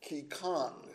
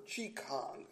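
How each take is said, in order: First: Qi Kong with Qi said as "kee"; hard K pronunciation. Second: Qi Kong with Qi said as "chee"; CH pronunciation. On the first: Preacher offers one pronunciation of the practice, "Qi Kong" said KEE-kong. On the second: Preacher offers the alternative pronunciation, "Qi Kong" said CHEE-kong. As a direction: say "Qi Kong" slowly as CHEE-kong, starting with CH. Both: Shown as a demonstration. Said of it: "I believe it's pronounced".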